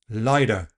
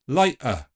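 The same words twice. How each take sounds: First: The t is a quick tap like d. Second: The t is replaced by a catch in the throat. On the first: It sounds American or Australian. "Tapping the t ... like a very fast d" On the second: It sounds a little Cockney. "let's replace it with a glottal stop"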